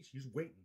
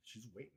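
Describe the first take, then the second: First: Said in the usual way. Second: Softer murmured repeat; soft aside to himself; quiet. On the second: Real, not acted. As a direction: drop it under your breath. Repeated line.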